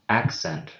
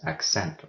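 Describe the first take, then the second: First: The stress falls on the usual syllable. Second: The stress falls on an unexpected syllable. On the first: The speaker calls it right. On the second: The speaker calls it wrong.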